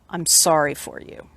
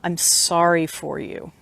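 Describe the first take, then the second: First: It is said in a plain voice. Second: It is said nasally, in a pitying way.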